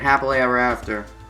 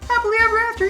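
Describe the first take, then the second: First: It is said in a mocking, sarcastic tone. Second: It is said in a genuine, cheerful tone. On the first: The speaker does not really mean it. The speaker calls it wrong. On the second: The speaker means it. The speaker calls it right.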